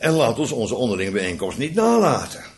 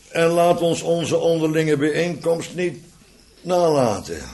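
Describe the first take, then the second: First: The sentence is read with strongly stressed words. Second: The sentence is read evenly without stressed words. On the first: "maar ik ga het nu met klemtonen lezen" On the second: "Ik probeerde hem zonder klemtonen te lezen"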